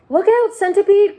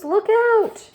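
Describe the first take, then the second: First: A high, loud cry of warning; frantic shout. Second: A high, loud warning cry, pitched even higher; desperate shout again. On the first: James warning the dancing centipede at the edge, shouting. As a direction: yell to stop him falling. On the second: James seeing the centipede go over, shrieking. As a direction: scream the warning as he slips. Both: Acted. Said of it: "cried James".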